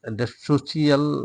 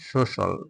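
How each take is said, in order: First: The ending is said as a longer 'shee-al'. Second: The ending is said as a short 'shal'. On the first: This is the local habitual pronunciation. The speaker calls it wrong. "এটা সোশিয়াল আমরা বলি" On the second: This is the foreign pronunciation. The speaker calls it right. "উচ্চারণটা হবে foreigner উচ্চারণ"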